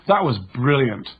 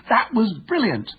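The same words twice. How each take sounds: First: Annoyed sarcasm. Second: Much higher, slower, thrilled praise; excited. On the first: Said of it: "with a tonality that communicates annoyance". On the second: Teammate praising a fantastic goal, excited and high. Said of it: "heard to say with excitement". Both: Retold or imitated.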